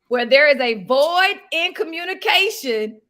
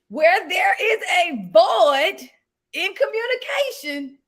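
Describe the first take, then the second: First: It is said at a fast pace. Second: It is said at a slow pace.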